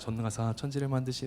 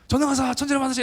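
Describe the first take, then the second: First: It is recited in a plain, ordinary way. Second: It is recited dramatically, with rhythmic heartfelt emphasis.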